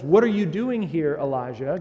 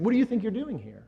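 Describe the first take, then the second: First: A raised, open invitation to speak, louder; inviting question. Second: Higher, a touch of scolding challenge; mock rebuke. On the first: Retold or imitated. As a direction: call him in kindly to state his business. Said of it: "he's inviting him to state his business". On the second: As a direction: play the stern rebuke he does not mean. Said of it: "God isn't rebuking Elijah".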